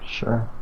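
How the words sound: The word sounds hesitant and unsure. The speaker calls it wrong. "Sounded a little hesitant there"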